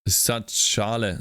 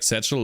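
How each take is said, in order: First: The name is pronounced like a German word. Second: The name is pronounced like the English word satchel. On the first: The speaker calls it wrong. "I thought it was a German name" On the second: The speaker calls it right. "You could say it like Satchel"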